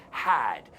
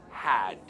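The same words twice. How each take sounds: First: "Had." ending on a crisp, audible D; clear final D. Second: "Had." dropping the final D sound, said low; wrong pronunciation. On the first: Teacher showing students the correct "had", D clearly heard. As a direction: land the D at the end of "Had." cleanly. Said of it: "Quiero oír esa D al final". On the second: Teacher demonstrating the wrong way to students, no final D. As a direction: clip off the D in "Had." like a careless learner. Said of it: "Cuidado, no decimos had". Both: Shown as a demonstration.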